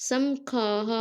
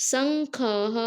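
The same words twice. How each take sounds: Both takes have the same delivery.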